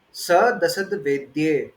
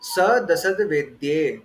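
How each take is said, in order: The two takes are said the same way.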